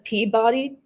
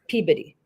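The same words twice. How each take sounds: First: The name is pronounced as it is written. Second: The name is pronounced the way locals say it. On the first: This is how the written name looks. The speaker calls it wrong. "it says Peabody" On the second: This is how the residents actually say it. The speaker calls it right. "it's Peabody. That's how they say it"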